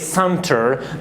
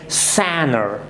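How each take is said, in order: First: The T after the N is clearly pronounced. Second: The T after the N is silent. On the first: The speaker calls it wrong. "do not say center" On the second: The speaker calls it right. "but say sanner"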